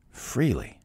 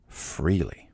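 First: "freely" said again, pitched higher and stressed; emphatic repeat. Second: Said in the usual way. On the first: Real, not acted. Repeated word, second higher.

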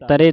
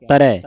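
First: ਤਰੇ ending in closed "ray". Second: ਤਰੈ louder, ending in open "rai". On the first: Teacher warning of a mistake, ਤਰੇ with closed e. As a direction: finish ਤਰੇ on a narrow e. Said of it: "ਨਹੀਂ ਕਹਿਣਾ". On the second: Teacher showing the right reading, ਤਰੈ with open ai. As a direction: finish ਤਰੈ firmly on wide ai. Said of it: "ਦਲਾਵਾਂ ਲੱਗੀਆਂ". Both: Shown as a demonstration.

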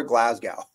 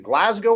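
First: "Glasgow" with an ow ending, like "cow"; Glasgow ending in "gow". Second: "Glasgow" with a long o ending, like "go". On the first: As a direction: say "Glasgow" to rhyme its end with "cow". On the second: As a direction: say "Glasgow" to rhyme its end with "go". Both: Shown as a demonstration. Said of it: "is it Glasgow or Glasgow".

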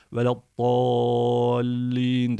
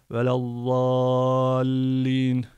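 First: "Veladdallin" drawn out slowly with a heavy d; slow chanted "Veladdallin", d reading; recitation with d. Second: "velallallin" drawn out slowly, doubled l held; slow chanted "velallallin", l reading; recitation with l. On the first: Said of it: "Veladdallin de diyebiliriz". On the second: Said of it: "velallallin de diyebiliriz". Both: Shown as a demonstration.

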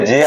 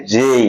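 First: Said in the usual way. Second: "জেই" with a gliding ey; corrected letter J. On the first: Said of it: "এটাকে অনেকে বলে". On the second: Shown as a demonstration. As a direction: stretch "জেই" from e into i. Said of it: "এর উচ্চারণ হবে".

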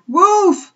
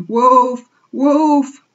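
First: Very high, loud shout of alarm; loudest cry. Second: Loud, raised cry of alarm; panicked cry. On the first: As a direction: cry it louder than all the others. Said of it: "more loudly than any". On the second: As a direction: cry out like a confused flock. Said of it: "cried the flock in dazed confusion". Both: A narrator's reading.

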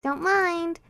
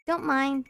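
First: Fake Japanese accent. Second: Said in the usual way. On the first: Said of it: "said it with a fake Japanese accent". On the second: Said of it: "They say that in sport anime".

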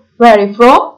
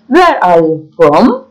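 First: Said in the usual way. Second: Slow, word-by-word question with rising end; slow model question. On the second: Shown as a demonstration. Teacher modelling the question for learners, slowly. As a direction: draw each word out for learners to follow.

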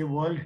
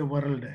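First: Said in the usual way. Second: "world" with a boldly rolled R; bold Andhra R. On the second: Shown as a demonstration. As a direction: pronounce "world" Andhra-style, sounding the R hard. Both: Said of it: "who will always pronounce R very boldly".

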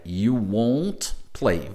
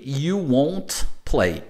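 First: You won't play again very slowly, lower and softer; teacher repeats it slowly for students to copy. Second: You won't play drawn out very slowly; teacher spells out each word slowly; slow model phrase. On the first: Teacher repeats the phrase slowly for students. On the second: Teacher models the future negative for students. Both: Shown as a demonstration. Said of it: "e no futuro aqui".

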